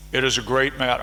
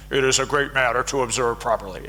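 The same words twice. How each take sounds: First: Said in the usual way. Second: Put-on quick, playful ancient Greek accent. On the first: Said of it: "I don't know how to do an ancient Greek, uh, accent". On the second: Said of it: "Aristotle probably talked like this".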